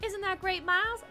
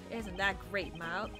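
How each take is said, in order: First: It is said in a sincere tone. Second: It is said in a sarcastic tone.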